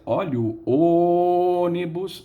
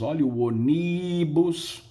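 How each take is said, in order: First: The stress is on the first syllable of ônibus. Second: The stress is on a later syllable of ônibus. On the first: The speaker calls it right. "Se eu usar a técnica do feirante, eu vou dizer" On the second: The speaker calls it wrong. "Ninguém diz"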